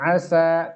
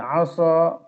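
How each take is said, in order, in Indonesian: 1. Bunyi s itu ringan dan tipis. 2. Bunyi s itu berat dan tebal. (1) "bukan dibaca asa" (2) "agak tebal sinnya"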